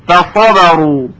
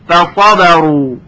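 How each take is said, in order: No difference in how they are said.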